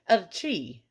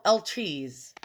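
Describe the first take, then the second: First: The word is pronounced the French way. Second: The word is pronounced the American English way. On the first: The speaker calls it right. "That's how she sounded in the pronunciation video I just watched" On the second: The speaker calls it wrong. "I said it wrong"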